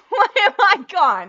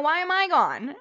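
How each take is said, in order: First: High, loud, laughing disbelief; laughing panic. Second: Loud, startled confusion; startled question. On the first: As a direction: shriek it through panicked laughter. Webcam fails, panicked repeat. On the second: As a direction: ask it in sudden alarm. Webcam fails, first startled take. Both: Real, not acted.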